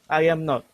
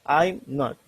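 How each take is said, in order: First: The words 'I am' are said in full. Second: The words 'I am' are contracted to 'I'm'.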